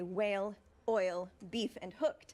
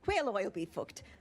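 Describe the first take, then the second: First: The words are said separately with pauses. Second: The words are run together without pauses.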